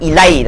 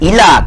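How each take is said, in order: First: The word ends with an 'ai' glide. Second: The word ends with a plain 'a' vowel. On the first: The speaker calls it wrong. "Jangan sebut ilai tuan-tuan ya" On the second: The speaker calls it right. "kalau sepatah sebut ila"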